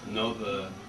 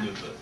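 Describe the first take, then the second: First: The first vowel is an 'oh' sound. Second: The first vowel is an 'oo' sound.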